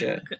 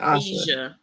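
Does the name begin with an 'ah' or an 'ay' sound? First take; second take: ay; ah. First: The name begins with an 'ay' vowel. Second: The name begins with an 'ah' vowel. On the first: The speaker calls it right. "it's really just like the letter A and sh" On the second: The speaker calls it wrong. "Somebody got me messed up calling this woman"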